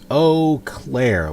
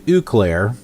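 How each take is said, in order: First: The first syllable sounds like 'oh'. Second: The first syllable does not sound like 'oh'. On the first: The speaker calls it right. "it's Eau Claire, like, oh Claire" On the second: The speaker calls it wrong. "I was calling it Eau Claire"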